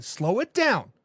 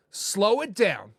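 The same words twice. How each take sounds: First: Said in the usual way. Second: Slow, drawn-out calming words; slow, soothing reassurance. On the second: Shown as a demonstration. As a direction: ease the fans down slowly.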